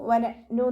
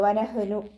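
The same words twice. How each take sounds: First: The consonant is a glottal stop catch. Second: The consonant is a tight, throaty h. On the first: "സൗണ്ടിനെ ഹംസയുടെ സൗണ്ടായി പോവാതെ നോക്കുക ... എന്നായി പോവരുത്" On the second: "ഹാഇൻ്റെ സൗണ്ടും ആവാൻ ചാൻസ് ഉണ്ട് ... അതും ആയി പോവരുത്"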